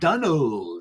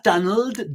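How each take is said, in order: First: The second syllable is stressed, sounding like 'old'. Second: The second syllable is said plainly, unstressed. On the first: The speaker calls it right. "like O L D. ... like old Donald" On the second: The speaker calls it wrong. "not Donald"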